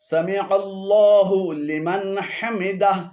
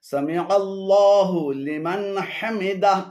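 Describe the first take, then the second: Both takes have the same delivery.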